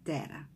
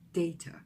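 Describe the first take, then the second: First: It is said with an American pronunciation. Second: It is said with a British pronunciation. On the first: "So in American English, it's more data" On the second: "but in British, it's usually data"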